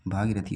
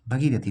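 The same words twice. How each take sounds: First: भागीरथी with a long aa after the bh; भागीरथी with a long aa, not a short a; correct Hindi pronunciation. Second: भगीरथी with a short a after the bh; भगीरथी with a short a, not the long aa; wrong Hindi pronunciation. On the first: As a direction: stretch the first vowel in भागीरथी. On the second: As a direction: say भगीरथी with a short first vowel. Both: Shown as a demonstration. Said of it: "भागीरथी होता है".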